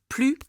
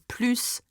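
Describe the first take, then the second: First: The word ends without an s sound. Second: The word ends with an s sound. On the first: It means no more. "Plus tends to be no more" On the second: It means adding on to something. "I need to pronounce the s sound of plus"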